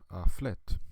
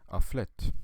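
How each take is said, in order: No difference in how they are said.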